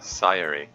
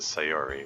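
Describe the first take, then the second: First: The stress is on the first syllable. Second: The stress is on the second syllable. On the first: The speaker calls it right. "put the emphasis on the first syllable always" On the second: The speaker calls it wrong. "with emphasis on the O instead of emphasis on the Sai"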